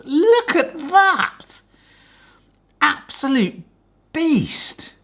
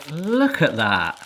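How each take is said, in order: First: Slow, high delighted gasp of a line; thrilled. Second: Said in the usual way. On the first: Real, not acted. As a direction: Look at that drawn out, much higher. Seeing the gooey inside.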